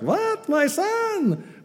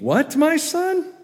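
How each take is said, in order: First: It is read in a put-on female Jewish accent. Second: It is read in the speaker's ordinary voice.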